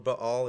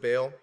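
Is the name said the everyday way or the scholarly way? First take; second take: scholarly; everyday. First: The name is said the scholarly, learned way. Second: The name is said the everyday, popular way.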